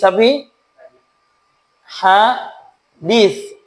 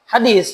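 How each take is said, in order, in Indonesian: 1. Konsonannya bunyi th, lidah di gigi. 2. Konsonannya bunyi s biasa. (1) "Pakai sa" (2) "jangan bilang apa?"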